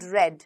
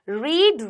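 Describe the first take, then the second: First: The vowel is a short e sound. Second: The vowel is a long ee sound. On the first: It is the past participle of the verb. "Verb की third form भी रेड ही होती है" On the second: It is the present form of the verb. "Spelling same होती है लेकिन पढ़ा कैसे जाता है, उच्चारण क्या होता है"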